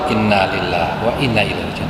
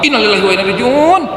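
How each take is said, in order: First: It is said in a calm, relaxed tone. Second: It is said in a tense, agitated tone. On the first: The speaker calls it right. "luar biasa kalau yang pertama ya" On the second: The speaker calls it wrong. "banyak yang kedua ya, tegang"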